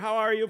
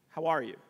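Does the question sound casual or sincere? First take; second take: casual; sincere. First: It is asked as a quick, casual greeting. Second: It is asked as a sincere, caring question.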